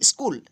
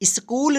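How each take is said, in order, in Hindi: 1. शुरू के व्यंजन जल्दी-जल्दी एक साथ जोड़कर बोले जाते हैं। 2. शुरू के व्यंजन अलग-अलग करके, धीरे-धीरे बोले जाते हैं। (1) "वहां हम जल्दी उच्चारण करेंगे" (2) "स्कूल नहीं पढ़ेंगे"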